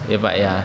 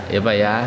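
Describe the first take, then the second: The two takes are said the same way.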